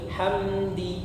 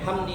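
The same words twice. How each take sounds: First: The first syllable is said slowly and held. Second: The first syllable is said quickly and clipped. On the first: The speaker calls it right. "hamnya jangan terlalu cepat" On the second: The speaker calls it wrong. "bukan hamdi"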